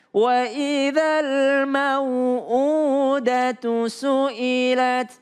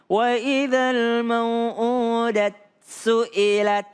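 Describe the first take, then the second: First: A short u vowel ends mau'udatu. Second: Mau'udat ends without a final vowel. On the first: This follows the reading of Hafs from Asim. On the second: This follows a different reading tradition.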